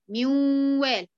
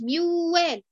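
First: The merged sound is held with nasal resonance. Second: The merged sound is said without nasal resonance. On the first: The speaker calls it right. "امال اقول ايه؟ ميوال" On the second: The speaker calls it wrong. "ما اقولش ميوال"

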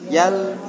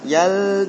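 First: The syllable is kept short and quick. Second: The syllable is drawn out too long. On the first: The speaker calls it right. "singkat ya" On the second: The speaker calls it wrong. "Jangan terlalu lama. ... jangan"

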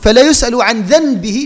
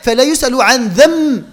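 First: A clear n sound comes before the b. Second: An m sound comes before the b. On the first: The speaker calls it wrong. "فلا نقول" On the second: The speaker calls it right. "ميم"

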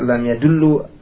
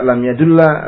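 First: The verb ends with a u vowel. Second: The verb ends with an a vowel. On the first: The ending is chosen to match the preceding vowel. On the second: The ending is chosen to lighten pronunciation.

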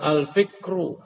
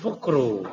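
First: The vowel after the f is an 'i'. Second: The vowel after the f is a 'u'. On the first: The speaker calls it right. "al-fikru. Bukan fukru" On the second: The speaker calls it wrong. "Bukan fukru"

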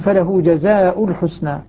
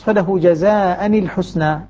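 First: Jaza ends with a -u sound before al-husna. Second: Jaza ends with an -an sound before al-husna. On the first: "الباقون يقرؤون" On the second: "قرأ حمزة والكسائي وحفص"

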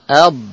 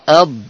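First: The final consonant sound is drawn out. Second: The final consonant sound is drawn out.

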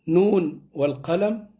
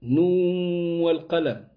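First: The n is clearly kept before the w. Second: The n merges into the following w sound. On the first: The speaker calls it right. "لا يكون فيها الإدغام" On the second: The speaker calls it wrong. "ليه لم تضغم، يعني"

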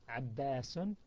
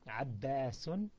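The two takes are said the same way.

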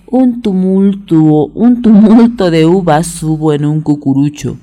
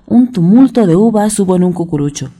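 First: It is said at a moderate, unhurried pace. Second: It is said at a quicker pace.

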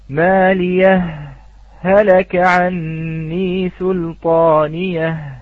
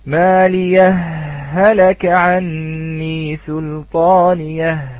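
First: A brief pause separates the two h sounds. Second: The two h sounds merge into one long h. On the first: "بالسكت أو بالسكتة اللطيفة" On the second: "حال الإدغام: ... بلفظ هاء واحدة مشددة"

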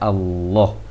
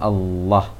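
First: The vowel is heavy and leans slightly toward O. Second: The vowel is thin and open, like plain Indonesian. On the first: The speaker calls it right. "seharusnya Allah, mengarah ke O sedikit" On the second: The speaker calls it wrong. "Jangan Allah. Karena Allah itu ada kebiasaan pengucapan dari bahasa Indonesia"

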